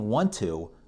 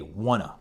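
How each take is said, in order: First: Both words are said fully and separately. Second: The words blend into one reduced word. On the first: "instead of saying want to" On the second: "I'll say wanna"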